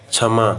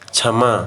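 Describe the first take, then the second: No difference in how they are said.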